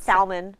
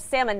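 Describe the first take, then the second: First: "salmon" said SAL-mun, L sounded; "salmon" with a clear L; L pronounced salmon. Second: "salmon" said SAM-un, no L sound; "salmon" with the L left silent. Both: Shown as a demonstration. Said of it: "It is salmon, not salmon".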